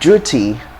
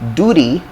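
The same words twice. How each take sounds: First: It begins with a j-like sound. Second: It begins with a plain d sound. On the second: "American English"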